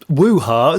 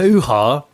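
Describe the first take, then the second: First: The word begins with a w sound. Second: The word begins with an h sound. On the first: "it's woo in this" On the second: "it not hoo-ha?"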